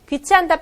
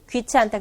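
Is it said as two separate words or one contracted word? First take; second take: separate words; contracted. First: It is said slowly as two separate words. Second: It is said quickly, contracted into one word.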